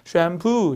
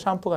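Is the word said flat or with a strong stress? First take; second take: stressed; flat. First: The word is said with a strong stressed syllable. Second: The word is said flat, without strong stress. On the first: The speaker calls it right. "아니라 샴푸" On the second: The speaker calls it wrong. "샴푸가 아니라"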